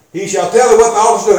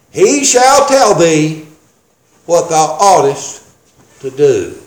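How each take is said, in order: First: Rapid recap of scripture, run together; quick re-reading. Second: Drawn-out scripture, dropping low at the end; slow deliberate reading. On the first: Preacher repeating a verse before citing it, quick re-reading. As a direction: rattle the verse off fast. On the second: Preacher reading the angel's words to a congregation, slow and deliberate. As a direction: read the verse very slowly, broken by pauses. Reads verse slowly for emphasis. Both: Shown as a demonstration.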